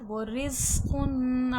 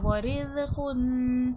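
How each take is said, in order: First: The consonant is pronounced with force. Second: The consonant is pronounced softly. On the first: The speaker calls it right. "जा सख्ती सी टी के साथ पढ़ा जाएगा" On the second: The speaker calls it wrong. "इसको नरमी से नहीं पढ़ना है ऐसा। वो रिज़्क़ुन ऐसा नहीं पढ़ा जाएगा"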